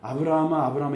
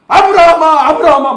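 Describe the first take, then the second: First: It is called out calmly and plainly. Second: It is called out urgently, as if startled.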